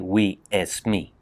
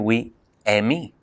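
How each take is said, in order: First: The second word contains an S sound. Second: The second word has no S sound. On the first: "They don't say we Esme" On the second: "They say we Emi"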